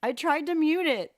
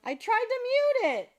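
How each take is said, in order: First: Loud apologetic repeat; loud repeat of the apology; flustered again. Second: High, loud flustered apology; startled high loud excuse. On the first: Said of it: "Sorry, guys". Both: Real, not acted.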